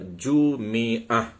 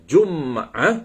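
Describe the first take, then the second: First: An i vowel follows the m. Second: No vowel follows the m. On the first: "yang ketiga ha, kita boleh baca" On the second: "Yang kedua kita boleh baca dengan Jum'ah"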